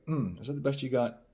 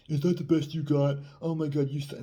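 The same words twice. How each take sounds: First: Teasing hum, slightly raised pitch; playful. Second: High, loud mock scorn; acting the asshole. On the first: Dating coach showing a fun tease after a kiss, playful. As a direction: tease lightly, having fun with it. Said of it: "Be playful". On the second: Dating coach showing how not to tease, mock-obnoxious. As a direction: scoff exaggeratedly, pitched up. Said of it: "not being an asshole and be like". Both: Shown as a demonstration.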